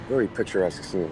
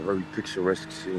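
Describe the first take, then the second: First: It is spoken in his ordinary, non-British accent. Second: It is spoken in a put-on British accent.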